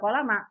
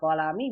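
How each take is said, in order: First: The word ends with the vowel a. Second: The word ends with the vowel i. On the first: "bisa kolama" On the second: "bisa kolami"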